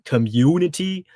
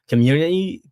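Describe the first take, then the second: First: The U vowel is clearly and carefully pronounced. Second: The U vowel is swallowed and slurred. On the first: The speaker calls it right. "I have to really enunciate the U" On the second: The speaker calls it wrong. "my tongue kind of like runs into the back of my throat"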